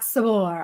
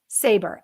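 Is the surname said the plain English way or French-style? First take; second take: French; English. First: It has a French-style second syllable. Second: It sounds like the English word saber. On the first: The speaker calls it wrong. "I gave you a little bit of a French uh, zhuzh on your last name" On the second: The speaker calls it right. "Like saber-tooth tiger"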